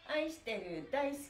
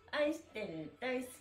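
No difference in how they are said.

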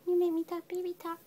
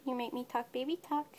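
First: High cooing repeat. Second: Said in the usual way. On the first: Real, not acted. Owner cooing to her kitten in high baby talk.

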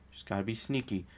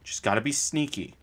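First: Much softer, hushed sneaky repeat. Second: Said in the usual way. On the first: Shown as a demonstration. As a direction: drop it to a secretive hush.

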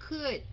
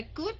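First: "could" opening on an airy KH sound; aspirated K. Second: First "could" with a tight, unaspirated K; mistaken hard K. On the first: Teacher modelling the right sound, KH-like "could". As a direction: puff air through the C of "could". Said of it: "mà là could". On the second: Teacher contrasting the wrong sound, unaspirated "could". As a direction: hold back the air on the C of "could". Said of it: "không phải could mà là could". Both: Shown as a demonstration.

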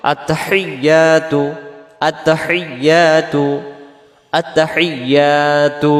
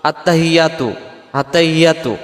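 First: আত্তাহিয়াতু slow, with the doubled ত held and a breathy হি; correct pronunciation. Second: আত্তাহিয়াতু said quickly with a plain h, the common mistake; wrong pronunciation. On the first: Teacher demonstrating correct আত্তাহিয়াতু, slowly. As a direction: stretch আত্তাহিয়াতু, holding the tashdid. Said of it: "তাসজিদটা সহ আদায় করার জন্য বলতে হবে". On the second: Teacher showing the common mistake in আত্তাহিয়াতু. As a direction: rattle off আত্তাহিয়াতু the careless everyday way. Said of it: "আমাদের উচ্চারণে". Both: Shown as a demonstration.

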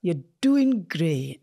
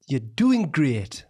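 First: Slow Geordie attempt with a rolled R in "great"; botched Geordie. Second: Drawn-out Geordie accent, very slow; Geordie model. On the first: Repeating after a coach, slow Geordie attempt drifting Scottish. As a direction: copy Geordie slowly, rolling the R in "great". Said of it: "you're rolling the R". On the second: Coaching someone through the accent, slow clear Geordie. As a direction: stretch it out slowly in Geordie. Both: Shown as a demonstration.

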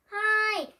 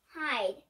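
First: High, loud panicked shout; urgent shout. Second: Said in the usual way. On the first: Acted. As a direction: yell for everyone to hide. Urgent escape, said twice.

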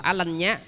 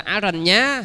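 First: "Alanya" said with L replacing the R; R read as L. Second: Said in the usual way. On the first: Shown as a demonstration. Monk shows how Chinese read Aranya, R turned to L. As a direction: say "Alanya" with an L in the middle. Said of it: "chữ R đó họ sẽ đọc thành chữ L". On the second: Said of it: "không có phát âm được chữ R".

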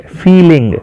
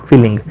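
First: "feeling" pitched up, first syllable long and weighted; emphatic long "ee" opening "feeling"; stress on ફી. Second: Said in the usual way. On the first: Shown as a demonstration. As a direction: lean hard on "ફી" in "feeling". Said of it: "આના ઉપર વધારે ભાર અપાશે". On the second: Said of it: "આનો ઉચ્ચાર થશે".

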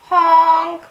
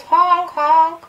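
First: High, loud mock horn; imitated car honk. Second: High, loud playful horn honks; double mock honk. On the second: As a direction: honk twice like a car. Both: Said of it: "sounded like the Roadrunner".

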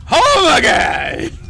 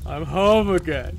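First: High, drawn-out holler; drunken shout. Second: Slow, glum drawn-out words; glum drunken lament. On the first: Drunk girl hollers about coming home, long loud shout. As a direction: bellow it slowly. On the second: Drunk girl laments her town, slow glum delivery. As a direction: draw it out wearily. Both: Acted.

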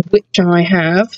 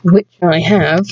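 First: Slow teasing brag; smug gloat. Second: Slow smug taunt; smug gloat. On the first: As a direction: savour the taunt. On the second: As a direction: rub it in slowly. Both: Acted. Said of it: "Just to rub it in on them".

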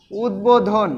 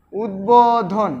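First: Said in the usual way. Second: উদ্বোধন stretched slowly as উদ-বো-ধন; drawn-out pronunciation. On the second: Shown as a demonstration. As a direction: say উদ্বোধন slowly, keeping the ব audible. (উদ্বোধন টেনে ধীরে, ব স্পষ্ট) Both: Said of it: "উচ্চারিত কিভাবে হচ্ছে দেখো তো".

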